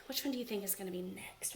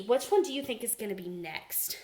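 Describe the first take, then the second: First: Much softer, quicker near-whisper; softly asked again, like a secret; hushed repeat. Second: Said in the usual way. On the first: Shown as a demonstration. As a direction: drop to a secret murmur. Repeats question, second time hushed.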